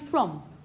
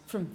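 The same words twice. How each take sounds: First: The vowel is full and clearly pronounced. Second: The vowel is reduced and quickly pronounced. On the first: It ends a question. "at the end of a question, you would pronounce it properly" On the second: It sits inside a sentence.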